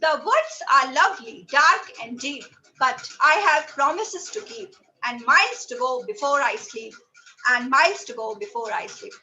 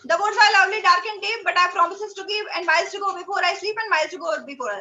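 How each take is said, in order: First: It is read with emotion and expression. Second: It is read flatly, like a robot.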